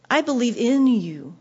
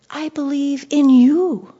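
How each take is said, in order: First: Said in the usual way. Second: Slow and louder, leaning hard on "you"; stress on you. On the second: Shown as a demonstration. Preacher showing which word the hymn stresses, "you" stressed. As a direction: land the weight on "you", drawn out. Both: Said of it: "The emphasis was on you".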